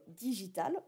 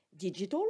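First: "digital" with the French "-tal", as in "relatif au doigt"; plain French "digital", clearly sounding the final "tal"; French pronunciation. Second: "Digital" said the English way, final "l" nearly dropped; English accent. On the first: Teacher contrasting it with the English word, French pronunciation. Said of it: "c'est pas comme digital en français". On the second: Teacher repeating the English word for students, English accent. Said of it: "avec mon super accent". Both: Shown as a demonstration.

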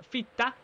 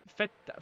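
First: Feta said as fita, higher pitch; Swedish-style fita. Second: Said in the usual way. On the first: Shown as a demonstration. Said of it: "I went, "Fita". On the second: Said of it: "I just tended Swedish".

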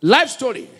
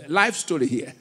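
First: Emphatic. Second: Laughing. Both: Real, not acted.

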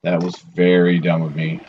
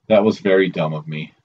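First: Rueful stress on "very". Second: Said in the usual way. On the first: Real, not acted. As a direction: press the word "very". Repeats the line differently.

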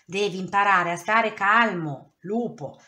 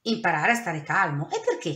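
First: A firm, louder telling-off from a worn-out owl; exasperated. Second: Can't believe what he's being asked; wolf questioning the owl, baffled; puzzled question. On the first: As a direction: lay down the law, fed up. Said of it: "disse un giorno Mastro Gufo sfinito". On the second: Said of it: "chiese Lupo". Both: A narrator's reading.

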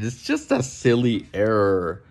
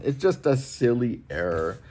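First: A put-on voice, sounding unlike himself, airily brushing it off; mocking the machine. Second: Said in the usual way. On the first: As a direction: parody a smug machine waving away the error. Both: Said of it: "stupid machine is trying to tell us".

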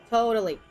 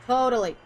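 Both takes have the same delivery.

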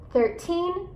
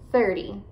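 First: Put-on THIRTEEN rising on a stressed TEEN; thir-TEEN, weight on the end of THIRTEEN; stress on final syllable. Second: THIRTY, short and falling, T softened to D; THIR-dy, first syllable stressed in THIRTY. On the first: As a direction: stretch the last syllable of THIRTEEN. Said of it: "você vai enfatizar as sílabas, eh, no final". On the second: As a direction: start THIRTY strong, ending light. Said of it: "esse som vai ter um som de D". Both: Shown as a demonstration.

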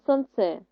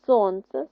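First: СонЦЕ with the last syllable stressed; son-TSE, weight at the end; wrong stress on second. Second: СОНце with the first syllable stressed; SON-tse, weight up front. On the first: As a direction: lean on ЦЕ in сонце. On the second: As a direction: lean on СОН in Сонце. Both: Shown as a demonstration. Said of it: "мало інший наголос".

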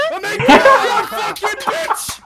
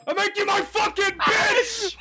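First: Louder yell breaking into laughter; laughing shout. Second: Slow gloating yell; triumphant shout. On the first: Trash talk, laughing. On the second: Trash talk after kill. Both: Real, not acted.

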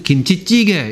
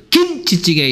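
First: Said in the usual way. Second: 김치찌개 with one syllable hit hard; 김치찌개에 영어식 강세를 넣어 말하기; stress on 김치찌개. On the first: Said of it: "우리는 김치찌개 이렇게 얘기하죠". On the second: Shown as a demonstration. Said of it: "우리는 김치찌개 이렇게 얘기합니까?". (김치찌개에 강세를 세게 넣기)

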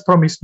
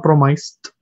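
First: "promised" with a short i, as "PROM-ist"; correct pronunciation. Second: "promised" with a long i, as "pro-MICED"; wrong pronunciation. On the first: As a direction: say "promised" so the end rhymes with "mist". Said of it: "Remember, it's promised". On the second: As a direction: mispronounce "promised" with "mice" in the second syllable. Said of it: "not promised". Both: Shown as a demonstration.

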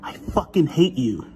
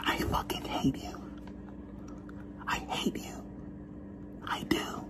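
First: Said in the usual way. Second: Whispered I fucking hate you, unvoiced. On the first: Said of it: "spoken take after whisper". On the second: Shown as a demonstration. Speaker whispering the insult to camera, hushed. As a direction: hiss out hate softly in a whisper. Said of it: "whispered then spoken take".

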